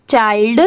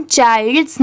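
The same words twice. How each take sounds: First: चाइल्ड ending on "d", no "s"; चाइल्ड with nothing after the final "d"; correct reading. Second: चाइल्ड्स with an added final "s"; plural-like "s" closing चाइल्ड्स; wrong reading. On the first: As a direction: stop चाइल्ड cleanly on the "d". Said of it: "सिर्फ". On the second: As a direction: end चाइल्ड्स on an audible "s". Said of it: "नहीं पढ़ेंगे". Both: Shown as a demonstration.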